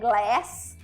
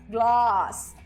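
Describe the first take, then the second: First: It is said in an American accent. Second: It is said in a British accent.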